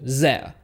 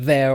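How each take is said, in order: First: It begins with a z sound. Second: It begins with a voiced th sound. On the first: "we're going to change it to" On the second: "the th sound with words like there"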